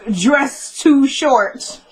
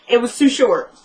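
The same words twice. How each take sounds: First: Each word drawn out very slowly; slow read-out. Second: Said in the usual way. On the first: Shown as a demonstration. Reading her own note on the dress to viewers, spoken very slowly.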